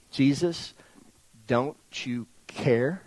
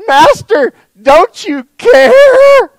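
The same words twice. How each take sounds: First: Soft, slow, low, word by word; quiet questioning plea. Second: High, loud cry with a long drawn-out CARE; panicked plea. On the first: Retold or imitated. Disciples questioning his love, quiet slow plea. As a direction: let it rise gently into a hurt question. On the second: Acted. Disciples crying out to their sleeping master in the storm, panicked plea. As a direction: wail it out in acted panic.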